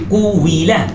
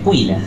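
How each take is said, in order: First: The u forms a full separate syllable. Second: The u is only a brief rounding before i. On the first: This is the form the regular pattern predicts. "dia tak baca kui quwila" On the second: This is how one recognized reading actually says it. "Tapi dia quila, kui"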